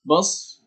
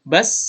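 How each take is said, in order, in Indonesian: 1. Bunyi s itu berat dan bertekanan. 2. Bunyi s itu ringan dan biasa. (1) "bukan bos, nah, bukan pakai sod" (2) "tapi pakai sin"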